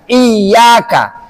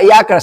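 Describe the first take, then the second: First: The middle y sound is pressed and held long. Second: The middle y sound is said short, not doubled. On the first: The speaker calls it right. "Harus harus ditekan" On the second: The speaker calls it wrong.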